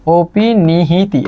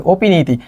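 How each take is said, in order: First: Very slow, syllable-by-syllable অপিনিহিতি; spelled-out pronunciation. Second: Said in the usual way. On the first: Shown as a demonstration. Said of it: "এটা বানানটাই মাঝে মাঝে পরীক্ষায় আসে". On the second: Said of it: "অপিনিহিতি বানানটাই মাঝে মাঝে পরীক্ষায় আসে".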